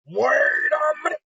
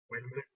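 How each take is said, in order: First: High, slow, shouted panic; a drawn-out hammed-up yell of alarm; mock panicked shout. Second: A soft, stunned murmur under the breath; quiet shocked mutter; hushed realization. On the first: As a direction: let the realization explode out. Realization bursts into a shout. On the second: Retold or imitated. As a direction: say it almost to yourself as it dawns. Kaiba's dawning realization, quietly.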